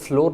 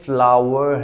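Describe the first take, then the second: First: It sounds like 'flor', with one syllable. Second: It sounds like 'flau-er', with two syllables. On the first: The speaker calls it wrong. "इसको लोग फ्लोर पढ़ते हैं तो फ्लोर नहीं" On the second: The speaker calls it right. "बल्कि ये फ्लावर है"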